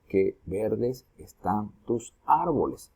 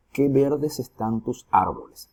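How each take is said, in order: First: "Qué verdes están tus árboles" slowly, syllable by syllable; slow, measured syllable division of "Qué verdes están tus árboles"; split into syllables. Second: Said in the usual way. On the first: Shown as a demonstration. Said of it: "Hacemos la separación". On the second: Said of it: "Veamos otro ejemplo".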